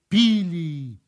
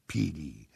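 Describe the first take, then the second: First: PILI high, loud and drawn out; emphatic repeat. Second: PILI low and soft, falling; subdued repeat. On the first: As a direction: let PILI ring out, then fall. Repeated word, climax of the rain. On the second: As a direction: let PILI sink away gently. Repeated word, dying away. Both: A narrator's reading.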